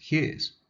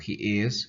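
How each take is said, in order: First: The two words are contracted into one syllable. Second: The two words are said separately in full.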